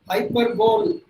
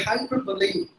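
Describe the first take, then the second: First: The word ends in a single 'bowl' syllable. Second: The word ends in two syllables, 'bo-lee'. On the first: The speaker calls it wrong. "Hyperbole is not the right pronunciation" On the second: The speaker calls it right. "It should be hyperbole"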